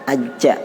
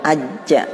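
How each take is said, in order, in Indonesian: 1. Konsonan akhirnya dilepas dengan desis. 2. Konsonan akhirnya dilepas dengan desis.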